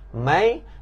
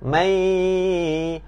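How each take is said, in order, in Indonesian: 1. Suku kata itu diucapkan dengan biasa tanpa dengung sengau. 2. Suku kata itu diucapkan dengan dengung sengau yang bergetar. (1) "itu masuk" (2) "dia kena vibrate sikit, tambah vibrate"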